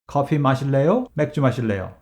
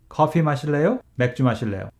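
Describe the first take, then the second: No difference in how they are said.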